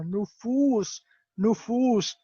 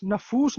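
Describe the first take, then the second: First: نفوس with pesh on noon, nufoos; teacher modelling نفوس as nu-foos; correct pronunciation. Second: نفوس with zabar on noon, nafoos; the mistaken نفوس said na-foos; teacher showing how not to say نفوس; wrong pronunciation. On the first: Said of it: "یہ نون کے اوپر پیش ہے". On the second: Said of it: "نفوس نہیں کہنا". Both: Shown as a demonstration.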